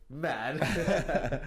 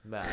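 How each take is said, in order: First: Laughing. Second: Said in the usual way. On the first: Shown as a demonstration. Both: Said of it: "Let's try that again".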